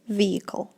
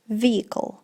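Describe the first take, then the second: First: The middle 'h' sound is silent. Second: The same.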